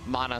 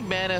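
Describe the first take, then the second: First: The name is said with a European-sounding pronunciation. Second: The name is said with an American-sounding pronunciation. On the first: "Mana sounds more European" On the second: "Mana sounds more American"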